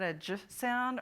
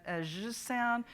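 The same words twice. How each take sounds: First: "j" said as a short juh with a stop onset; hard j sound. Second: "zh" said as continuous voiced friction, no stop; soft zh sound. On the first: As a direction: make the "j" brief and hard, as in jump. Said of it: "Is that, that a j sound". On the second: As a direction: let the "zh" buzz without a hard onset. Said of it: "or a, a zh sound". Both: Shown as a demonstration.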